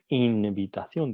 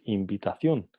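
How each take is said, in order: First: "invitación" with a clear alveolar n before the v; wrong pronunciation. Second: "invitación" said as "imbitación", lips closed for an m before the v; right pronunciation. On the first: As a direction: say "invitación" with the tongue-tip n, as the wrong form. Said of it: "No decimos invitación". ("invitación" con n alveolar, la forma incorrecta) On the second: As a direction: say "invitación" the correct way with the m sound. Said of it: "decimos invitación". ("invitación" con m bilabial, la forma correcta) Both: Shown as a demonstration.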